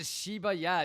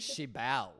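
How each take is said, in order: First: The word ends with a 'ya' sound. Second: The word ends with an 'l' sound. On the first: The speaker calls it wrong. "it's not even Shiba Ya" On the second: The speaker calls it right. "It's like Shibal"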